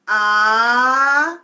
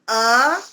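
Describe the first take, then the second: First: The vowel is held about twice as long. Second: The vowel is held for a short time.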